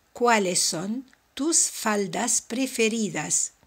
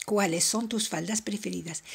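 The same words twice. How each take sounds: First: Slow, clear model sentence; slow careful translation. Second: Said in the usual way. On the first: Shown as a demonstration. Teacher slowly translating the question for students. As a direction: say it slowly so learners follow. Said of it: "teacher models Spanish translation". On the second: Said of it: "repeated at normal pace".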